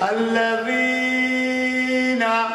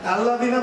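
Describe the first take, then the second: First: The second-syllable vowel is drawn out long. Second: The second-syllable vowel is cut short. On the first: The speaker calls it right. "জের হরফ টেনে টেনে পড়িবে" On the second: The speaker calls it wrong. "এরকম বলা যাবে না ... বললে এই ইয়াটা বাদ হয়ে গেল"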